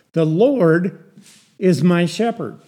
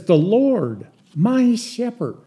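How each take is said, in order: First: Said in the usual way. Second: "Lord, my shepherd" in two beats, MY pitched high; emphatic verbless phrase. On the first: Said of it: "That's English". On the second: Shown as a demonstration. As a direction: lift "my" high and louder straight after "Lord". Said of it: "It's used for emphasis".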